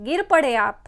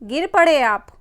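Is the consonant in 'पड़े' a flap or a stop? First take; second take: stop; flap. First: The consonant in पड़े is a full retroflex stop. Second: The consonant in पड़े is a quick retroflex flap. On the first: "अगर हम यहां से बिंदु हटा दे" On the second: "अगर बिंदु यहां पे लगा रहेगा"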